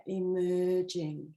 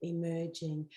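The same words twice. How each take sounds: First: Slow savoring. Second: Soft repeat. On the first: Coach savoring the card's word emerging, drawn out slowly. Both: Shown as a demonstration. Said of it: "Look at that".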